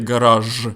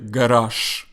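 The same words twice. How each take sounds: First: The final sound is a voiced zh. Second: The final sound is a voiceless sh. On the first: The speaker calls it wrong. "I don't say garage" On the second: The speaker calls it right. "but Russians say garage"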